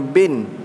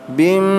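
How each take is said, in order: First: The syllable ends with a plain n sound. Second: The syllable ends with a nasal m sound. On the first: The speaker calls it wrong. "jangan bin" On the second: The speaker calls it right. "Bacaan yang betul"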